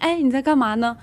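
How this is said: It sounds friendly and cheerful.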